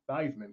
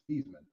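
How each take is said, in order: First: The first part rhymes with Heisman. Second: The first part does not rhyme with Heisman. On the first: It was changed to help win an award. "because it rhymes with Heisman" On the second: This is the name's original pronunciation. "His actual pronunciation was"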